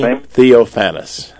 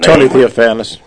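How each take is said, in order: First: The name is said more slowly. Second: The name is said at a normal pace.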